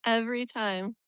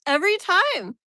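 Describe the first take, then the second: First: Said in the usual way. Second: Loud, high burst of frustration; exasperated cry. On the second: Real, not acted. Streamer fed up with the sun returning, exasperated. Sun spoils it yet another time.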